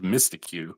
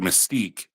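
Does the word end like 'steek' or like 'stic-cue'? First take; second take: stic-cue; steek. First: The word ends with 'stic' then 'cue'. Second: The word ends with a single 'steek' sound. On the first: The speaker calls it wrong. "I pronounced it ... wrong for a long time" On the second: The speaker calls it right. "I remember seeing the word mystique"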